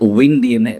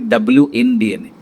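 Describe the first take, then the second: First: The first part sounds like the word 'win'. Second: The first part is the letter W, then 'in'. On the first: This is how the company name is usually said. "we pronounce it Win D N A" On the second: The name stands for wellness inside DNA. "it's actually W in D N A"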